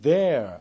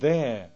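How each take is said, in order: First: The final R is clearly pronounced. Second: The final R is dropped. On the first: "이 R 발음이 들리는 게 미국식이라면" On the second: "R이 거의 죽어서 들리지 않는 거, 그게 바로 영국식 발음"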